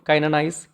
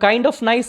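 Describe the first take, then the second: First: 'Kind of' is blended into one word, 'kinda'. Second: Both words 'kind of' are said in full. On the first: The speaker calls it right. "Better है कि काइंड nice बोलो" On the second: The speaker calls it wrong. "काइंड ऑफ nice बोले उससे better है"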